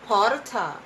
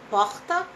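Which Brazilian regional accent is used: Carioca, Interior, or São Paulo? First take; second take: São Paulo; Carioca. First: It is said in a São Paulo city accent. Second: It is said in a Rio de Janeiro accent. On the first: "Se você é de São Paulo, você fala porta" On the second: "vamos dizer que você é carioca. Como é que você fala porta?"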